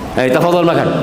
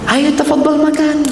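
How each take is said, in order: First: The tone is curt and dismissive. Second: The tone is warm and respectful. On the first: The speaker does not honor the listener. The speaker calls it wrong. "Tapi cara menyampaikannya berbeda" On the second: The speaker honors the listener. The speaker calls it right. "Ini kan menandakan dia menghormati"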